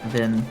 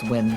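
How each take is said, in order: First: The name begins with a V sound. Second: The name begins with a W sound. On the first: The speaker calls it wrong. "not not Vin. ... My urge to just make the W sound like a V" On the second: The speaker calls it right. "I just realized it's Win"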